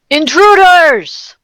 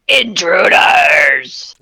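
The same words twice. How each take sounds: First: It is said in a plain, normal voice. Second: It is said in a deep Batman-like voice.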